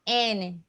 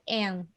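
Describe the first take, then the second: First: The name ends with an audible final vowel. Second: The name ends without a final vowel sound. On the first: The speaker calls it right. "ela tinha que ser Anne" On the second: The speaker calls it wrong. "ela não podia ser Anne"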